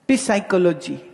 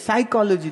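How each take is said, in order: First: The word begins with a sounded p. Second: The word begins without any p sound. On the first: The speaker calls it wrong. "बोले पी नहीं" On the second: The speaker calls it right. "पी silent है"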